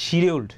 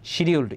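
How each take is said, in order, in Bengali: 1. শব্দটি 'sh' উচ্চারণ দিয়ে শুরু হয়। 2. শব্দটি 'sh' উচ্চারণ দিয়ে শুরু হয়।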